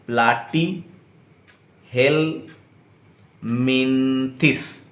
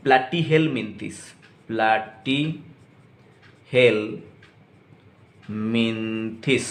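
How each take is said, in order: First: Platyhelminthes split into slow syllables. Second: Platyhelminthes drawn out syllable by syllable; slow syllables. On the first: Teacher shows students how to pronounce it, split into slow syllables. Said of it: "धीरे धीरे करके, split करके syllable में". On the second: Teacher models platyhelminthes for students, very slow syllables. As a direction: stretch platyhelminthes slowly, each syllable apart. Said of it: "pronounce कैसे करोगे बच्चों". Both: Shown as a demonstration.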